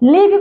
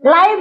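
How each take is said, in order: First: The vowel is a short 'i' sound. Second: The vowel is a long 'eye' sound. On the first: "ଲିଭ୍ ପଢିବା" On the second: "ଲାଇଭ୍ ବି ପଢିବା"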